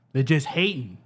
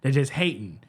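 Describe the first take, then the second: No difference in how they are said.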